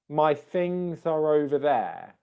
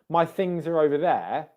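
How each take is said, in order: First: The word things ends with an S sound. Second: The word things ends with a Z sound. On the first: The speaker calls it wrong. "Let me try and say it with an S" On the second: The speaker calls it right. "I said it with a Z there"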